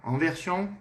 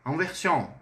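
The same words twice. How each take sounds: The two takes are said the same way.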